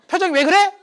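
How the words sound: It is asked in a sharp, confrontational tone. The speaker is picking a fight. "어투가 장난이 아니야"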